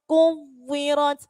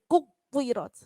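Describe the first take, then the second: First: The word is pressed but flows without a stop. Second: The word is broken by a brief stop inside. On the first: The speaker calls it right. "Ditekan tetapi tidak sampai terputus" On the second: The speaker calls it wrong. "Seakan-akan kita membacanya itu terputus"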